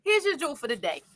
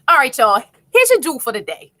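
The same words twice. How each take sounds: First: Composed restart. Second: Miss Joni. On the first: Real, not acted. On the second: Retold or imitated. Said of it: "I gotta be like Miss Joni".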